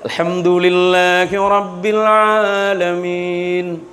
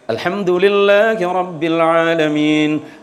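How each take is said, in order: First: It is recited slowly and carefully. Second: It is recited at a moderate pace.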